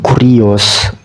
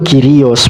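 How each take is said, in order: First: The first vowel is a 'u' sound. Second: The first vowel is a 'y' sound. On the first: The speaker calls it wrong. "bukan Kurios" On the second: The speaker calls it right. "sebenarnya bacanya tuh Kyrios ... nggak dibaca U tapi Y"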